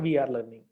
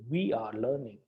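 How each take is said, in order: First: The W is made without rounded lips. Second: The W is made with rounded lips. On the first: The speaker calls it wrong. "it is not we are learning" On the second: The speaker calls it right. "it is we are learning"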